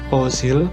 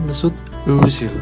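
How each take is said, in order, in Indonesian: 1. Vokal pertama adalah bunyi o biasa. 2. Vokal pertama adalah bunyi ö yang membulat, mirip e. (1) "bukan Ozil" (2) "tapi Mesut Özil"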